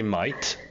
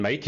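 First: "mate" said like "mite"; Australian vowel in "mate", rhyming with "kite"; Aussie "mate". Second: Said in the usual way. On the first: Shown as a demonstration. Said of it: "three things with the Aussie accent". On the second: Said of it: "rather than mate, you say mate".

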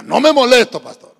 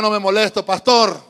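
First: Much louder repeat-after-me, then dropping off; louder call-and-response. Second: Loud repeat-after-me; call-and-response line. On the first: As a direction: say it again properly, with force. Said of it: "No, diga". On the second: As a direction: lead the church in the line. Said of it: "Diga conmigo". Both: Shown as a demonstration.

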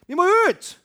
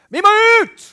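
First: High, loud insistent shout; loud preacher cry; evangelist shouting. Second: High, loud shout of eagerness; bellowing evangelist cry. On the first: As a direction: shout it again, pulling hard. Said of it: "nå er den skakk". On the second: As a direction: yell it like an evangelist who can't wait. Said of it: "han som er evangelist som roper sånn". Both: Retold or imitated.

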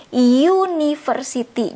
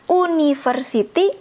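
First: "university" slowly, opening on a drawn-out "yoo"; stretched "yoo-" at the start of "university"; y sound in front. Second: "university" with a plain oo at the start, no y; wrong reading of "university", starting "oo-"; spelling pronunciation. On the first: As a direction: say "university" with a clear y first, "yoo-niversity". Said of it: "Jadi ada y-nya di depannya". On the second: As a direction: say "university" as written, "oo-niversity". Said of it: "bukan university, tapi university". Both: Shown as a demonstration.

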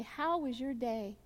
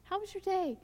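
First: Slow, absent-minded how was your day; distracted asking. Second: How was your day tossed off higher and lighter; breezy asking. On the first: To someone you're not really looking at, absently. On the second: Friendly greeting without eye contact, breezy. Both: Shown as a demonstration. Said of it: "you're not really looking them in the eye".

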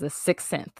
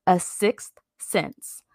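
First: "sixth sense" tripped over, the "th" muddled by braces; tripped-up pronunciation. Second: "sixth sense" very slowly, each consonant placed; careful enunciation. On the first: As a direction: stumble on "sixth sense", losing its consonant cluster. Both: Real, not acted. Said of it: "These braces, oh my God".

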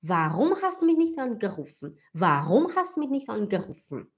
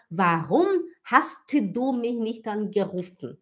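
First: Quicker flow, hast du run together; natural linked speech. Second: Slow, with hast du fully separated; over-careful words. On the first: Teacher asking Sofia as in real talk, hast du linked. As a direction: link "hast du" as "has-du". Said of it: "Eu falo". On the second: Teacher showing unnatural German, hast du slowly over-articulated. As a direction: sound the T in "hast du", every word apart. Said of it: "A gente não fala". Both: Shown as a demonstration.

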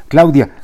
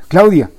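First: Louder and higher, calling after the car; desperate shout. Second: Even higher, loud desperate call; desperate shout, higher. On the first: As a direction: yell her name in despair. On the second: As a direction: yell her name again, pitched way up. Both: Acted. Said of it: "gritando desesperado".

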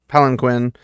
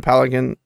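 First: Palanquin said fully and clearly, pæ-lan-kwin; careful palanquin. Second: Palanquin swallowed, the middle dropped as pæləən; a rushed slip on palanquin; mumbled palanquin. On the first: Shown as a demonstration. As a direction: correct the word, spelling out palanquin. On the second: Real, not acted.

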